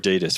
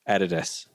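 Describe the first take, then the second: First: Adidas is said in the American way. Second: Adidas is said in a non-American way.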